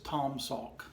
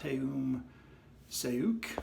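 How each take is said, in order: First: The vowels are the 'aw' vowel as in fraud. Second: The vowels are not the 'aw' vowel. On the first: The speaker calls it right. "like the A U in fraud, so aw" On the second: The speaker calls it wrong. "you would, might think, as I did"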